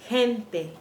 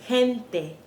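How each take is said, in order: No difference in how they are said.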